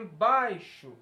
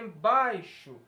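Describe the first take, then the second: First: The stress is on the middle syllable. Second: The same.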